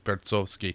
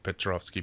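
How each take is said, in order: First: The name begins with 'Perts' followed by 'ov'. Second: The name begins with 'Pe' followed by 'trov'. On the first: The speaker calls it right. "it's Pertsovsky" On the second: The speaker calls it wrong. "you read something and it's like Petrovsky, but it's not Petrovsky"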